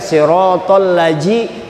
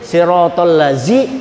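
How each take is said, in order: First: The consonant is a 'j' sound as in 'jam'. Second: The consonant is a 'z' sound as in 'zoo'. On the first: "Jangan kena dibaca siratal laji, itu huruf jim" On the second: "itu huruf zai"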